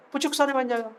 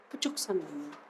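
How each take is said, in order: First: High-pitched, playful lilt; high, cute teacher's quip; playful high take. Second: Very soft, low echo; soft, dropped-down playful aside; hushed echo. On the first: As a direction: pitch it up teasingly. Playful line said two ways. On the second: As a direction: let it sink to a murmur. Same line repeated very softly. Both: Pretend.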